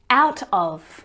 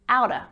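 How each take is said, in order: First: The word 'of' is pronounced in full. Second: The word 'of' shrinks to a schwa.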